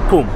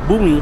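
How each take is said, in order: First: It starts with a p sound and has no final vowel. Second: It starts with a b sound and ends in i. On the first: The speaker calls it right. "should be pronounced at Pum" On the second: The speaker calls it wrong. "instead of Bumi"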